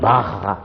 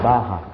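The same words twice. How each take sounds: First: The R is pronounced the Spanish way. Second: The R is pronounced the Portuguese way. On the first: "ça c'est espagnol" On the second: "Nous c'est barra"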